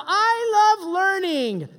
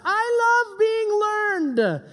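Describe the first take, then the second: First: High, slow goofy voice; mock eager student. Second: High, slow goofy voice; sarcastic over-the-top "I love learning" voice; mock eager student. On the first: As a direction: ham it up again, corrected. Corrected mock student line. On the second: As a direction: ham up a fake keen pupil. Mocking reluctant student voice.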